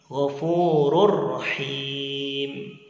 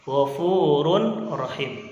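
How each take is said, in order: First: The n merges into the following r. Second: The n sound is heard before rahim. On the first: "Dibaca ghafurur rahim" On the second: "Contoh tanwin bertemu dengan ra"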